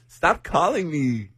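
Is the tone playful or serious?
playful. It sounds playful, not really meaning it.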